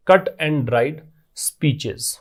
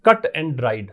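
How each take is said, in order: First: Each word drawn out slowly for note-taking; very slow dictation. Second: Said in the usual way. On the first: Shown as a demonstration. Teacher dictating the phrase to students, very slow. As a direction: spell it out slowly so the class can write. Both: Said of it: "बने बनाए भाषण को बोलते हैं".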